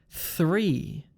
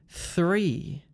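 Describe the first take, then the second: The two takes are said the same way.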